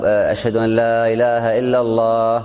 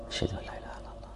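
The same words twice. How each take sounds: First: Full-voiced sung call to prayer; chanted adhan line. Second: The same line in a soft whisper; whispered repeat. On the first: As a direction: chant it out like a muezzin. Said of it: "يعيد المؤذن الشهادتين بصوت منخفض". (chanted, ترتيل الأذان بصوت مرتفع) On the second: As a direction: drop to a whisper, as if only those nearby should hear. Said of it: "بصوت منخفض". (همس خافت بالشهادة) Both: Shown as a demonstration.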